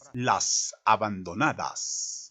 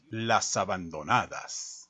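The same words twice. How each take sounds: First: The s sounds are stretched out very long. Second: The s sounds are short and ordinary. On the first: "triplicando las eses de la frase" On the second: "dígalo enfatizando el final con un dejo de tristeza"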